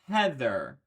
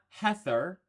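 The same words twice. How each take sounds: First: The th sound is voiced, with buzzing. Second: The th sound is voiceless, without buzzing. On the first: The speaker calls it right. "doesn't follow that convention" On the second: The speaker calls it wrong. "It's not Heather"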